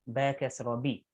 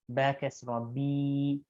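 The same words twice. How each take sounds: First: The vowels are said short and quick. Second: The vowels are stretched out long. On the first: The speaker calls it right. "We say quickly" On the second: The speaker calls it wrong. "We do not say"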